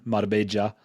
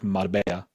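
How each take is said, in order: First: The double L sounds like j. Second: The double L sounds like y. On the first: "in Colombia, that y town, uh, changes to a j" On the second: "pronounced like a y"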